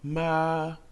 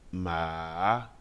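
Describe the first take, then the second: First: The pitch stays flat and high. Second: The pitch dips down and then rises. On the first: "Le premier ton se prononce plat et aigu" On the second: "Le troisième ton est descendant et remontant"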